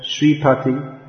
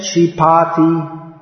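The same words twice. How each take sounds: First: "Shripati" as shree-puh-ti, short PA; contrasting Shripati. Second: "Shripati" as shree-PAA-tee, drawn out; mispronounced Shripati. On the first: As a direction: keep the PA of "Shripati" short and unstressed. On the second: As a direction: slowly stretch the PA in "Shripati". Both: Shown as a demonstration. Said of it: "instead of Shripati".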